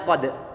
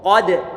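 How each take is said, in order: First: The first consonant is pronounced light and thin. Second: The first consonant is pronounced heavy and thick. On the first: The speaker calls it wrong. "dia bilang kode" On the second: The speaker calls it right. "mestinya ko, kode"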